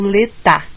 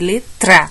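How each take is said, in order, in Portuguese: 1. O T vai direto para o A, sem R. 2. Ouve-se um som de R entre o T e o A. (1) "junto direto o T no A" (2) "eu tenho que incluir o R"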